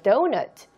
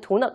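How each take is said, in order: First: It is said with an English pronunciation. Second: It is said with a Korean pronunciation. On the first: The speaker calls it right. "발음은요 똑같습니다" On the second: The speaker calls it wrong. "한국말로 할 때는 도넛, 도넛 이렇게 하는데"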